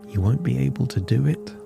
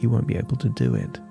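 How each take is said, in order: First: The voice rises at the end like a question. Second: The voice falls at the end like a statement. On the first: It is doubtful and not believable. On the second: It is a confident prediction.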